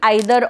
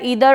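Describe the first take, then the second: First: The word begins with an 'eye' vowel. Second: The word begins with an 'ee' vowel.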